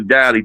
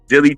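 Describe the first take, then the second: First: The first vowel sounds like the 'a' in 'dally'. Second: The first vowel sounds like the 'i' in 'dill'. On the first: "or Dally" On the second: "I don't know if you pronounce it Dilly or Dally"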